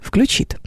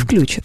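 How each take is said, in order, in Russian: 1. Ударение на последнем слоге. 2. Ударение на первом слоге. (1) "ударение мы всегда ставим здесь на последний слог" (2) "Не включит"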